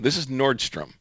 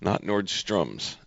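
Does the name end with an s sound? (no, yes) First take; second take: no; yes. First: The name ends without an s sound. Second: The name ends with an s sound. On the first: The speaker calls it right. "It's just Nordstrom" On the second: The speaker calls it wrong. "I've always called it Nordstrom's. With an S on the end"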